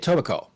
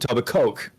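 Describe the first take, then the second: First: The final syllable 'coke' is not stressed. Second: The final syllable 'coke' is stressed. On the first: This is how locals say it. The speaker calls it right. "a native speaker would say Etobicoke" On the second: This is how a non-local says it. The speaker calls it wrong. "As opposed to Etobicoke. we don't we don't emphasize the Coke here"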